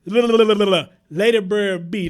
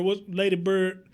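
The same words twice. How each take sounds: First: "Lady Bird B" stretched slow and louder; drawn-out name. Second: Said in the usual way. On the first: Real, not acted. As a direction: draw out "Lady Bird B" to get the name right. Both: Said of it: "let me get your name right".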